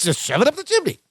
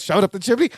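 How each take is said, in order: First: High, insistent answer that falls at the end; Balky. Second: Puzzled echo of "Shove it up the chimney?", rising at the end; Larry's questioning echo. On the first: Cousin repeats his hiding place to Larry, high imitated insistence. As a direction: imitate the odd cousin, pitched well up. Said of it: "And Balky goes". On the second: Larry echoes his cousin's idea, imitated as a question. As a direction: imitate a doubting repeat, lifting the end of "chimney". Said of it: "And Larry goes". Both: Retold or imitated.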